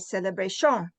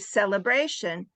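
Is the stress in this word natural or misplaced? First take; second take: misplaced; natural. First: The stress falls on another unexpected syllable. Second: The stress falls on the natural syllable. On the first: Someone who does not know English says it. The speaker calls it wrong. "or they might say celebration" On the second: A fluent English speaker says it. The speaker calls it right. "I might say celebration"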